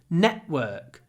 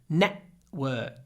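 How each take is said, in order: Both takes have the same delivery.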